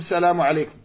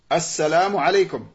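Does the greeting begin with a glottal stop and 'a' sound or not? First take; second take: not; does. First: It starts directly with 's', no initial 'a'. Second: It starts with a glottal stop and 'a'. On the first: The speaker calls it wrong. "Beaucoup de personnes, quand ils font salam, ils disent salamu alaykum" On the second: The speaker calls it right. "C'est ça la prononciation correcte"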